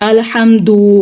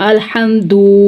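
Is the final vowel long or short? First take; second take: long; long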